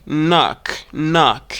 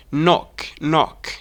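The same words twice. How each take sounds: First: American "knock" with open "nahk" vowel; American pronunciation. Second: British "knock" with rounded O; British pronunciation. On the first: Teacher contrasting for learners, American "knock". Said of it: "This word in American English". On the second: Teacher contrasting for learners, British "knock". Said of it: "but in British is". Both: Shown as a demonstration.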